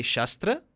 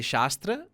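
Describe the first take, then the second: First: "Shastra" with a short a, like shus-tra; short first vowel. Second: "Shastra" with a long open aa, like shaas-tra; long first vowel. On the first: Teacher giving the word for weapon, "Shastra" with short a. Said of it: "it means a weapon". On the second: Teacher giving the word for scripture, "Shastra" with long aa. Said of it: "it's a scripture". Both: Shown as a demonstration.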